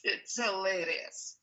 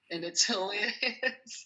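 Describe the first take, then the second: First: Said in the usual way. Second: A laugh breaking into the words; chuckling through the word hilarious. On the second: Real, not acted. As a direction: laugh it out, slowly. Laughing at colleague's repeats.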